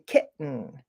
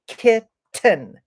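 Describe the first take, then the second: First: The middle T is a stop in the throat. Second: The middle T is clearly pronounced and released. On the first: The speaker calls it right. "I say kitten, ... This is what we call a glottal stop" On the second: The speaker calls it wrong. "I don't say kitten"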